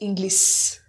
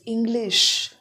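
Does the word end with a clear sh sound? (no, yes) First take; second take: no; yes. First: The word ends without a clear sh sound. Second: The word ends with a clear sh sound. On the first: The speaker calls it wrong. "not English" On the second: The speaker calls it right. "it is English"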